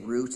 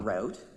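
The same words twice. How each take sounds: First: It is said with a Canadian accent. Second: It is said with an American accent.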